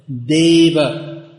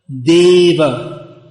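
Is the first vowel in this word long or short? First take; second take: long; long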